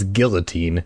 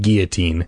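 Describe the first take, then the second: First: The word is pronounced with an English pronunciation. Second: The word is pronounced with a French pronunciation. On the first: The speaker calls it right. "as Americans and English speakers, it is guillotine" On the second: The speaker calls it wrong. "the classic French pronunciation of guillotine"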